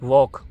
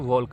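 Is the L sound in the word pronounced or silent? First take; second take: silent; pronounced. First: The L sound is silent before the K. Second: The L sound is pronounced before the K. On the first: The speaker calls it right. "हम इसको पढ़ते हैं वॉक" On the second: The speaker calls it wrong. "हम इसको अगर पढ़ते हैं तो वॉल्क हो गया"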